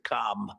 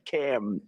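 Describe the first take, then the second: First: The vowel sounds like the one in 'calm'. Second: The vowel sounds like the one in 'cat'. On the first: This is how a different person's name is said. The speaker calls it wrong. "as opposed to Com. But we don't like Com" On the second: This is how her name is said. The speaker calls it right. "It's Cam, right?"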